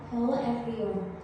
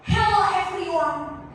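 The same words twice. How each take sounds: First: It is said held back, sounding vague and floating. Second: It is said with an open mouth, clearly.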